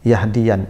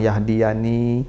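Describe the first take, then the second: First: The word ends on the consonant n. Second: The word ends with a long final vowel. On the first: The final 'me' suffix is dropped at a pause. "iya-nya hilang" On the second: The final 'me' suffix is kept. "makanya panjang"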